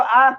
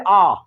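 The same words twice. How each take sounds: First: Short vowel sound said for the class; short आ demo. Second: Vowel आ held twice as long; long आ demo. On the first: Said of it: "बोलिए तो". (छोटा स्वर बोलकर दिखाना) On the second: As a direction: stretch the vowel आ to double length. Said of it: "ये बोलिए". (दीर्घ आ खींचकर बोलना) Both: Shown as a demonstration.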